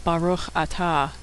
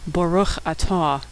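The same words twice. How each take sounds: First: "Baruch atah" with open ah vowels, slow and soft. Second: "Baruch" with the first vowel like the aw in saw, slow. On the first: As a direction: modern Israeli ah sounds, carefully. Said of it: "starting a blessing by saying". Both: Shown as a demonstration.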